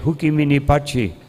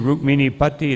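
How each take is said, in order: First: It is said with a Brazilian pronunciation. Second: It is said with a standard Indian pronunciation.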